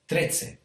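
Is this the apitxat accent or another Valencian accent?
apitxat. It is said in the apitxat Valencian accent. "But in this area, it's"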